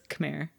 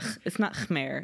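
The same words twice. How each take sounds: First: The first K has only a slight breath. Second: The first K has a strong breathy h sound. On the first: The speaker calls it right. "It's like a slightly aspirated K" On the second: The speaker calls it wrong. "It's not Khmer"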